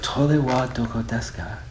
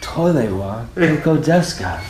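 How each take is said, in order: First: It is said plainly, without special feeling. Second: It is said with great passion.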